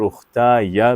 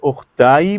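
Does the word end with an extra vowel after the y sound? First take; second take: yes; no. First: The final y is followed by an a vowel. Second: The final y has no vowel after it. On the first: "या पे ज़बर दे के भी आगे मिलाया जा सकता" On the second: "या साकिन बोला जाता है"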